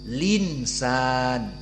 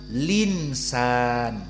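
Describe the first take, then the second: First: The l joins straight onto the vowel. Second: The same.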